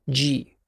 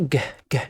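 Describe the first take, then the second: First: The consonant is followed by an ee vowel. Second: The consonant is said alone with no vowel. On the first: The speaker calls it wrong. "مش جي" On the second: The speaker calls it right. "يبقى بيتنطق ج ج"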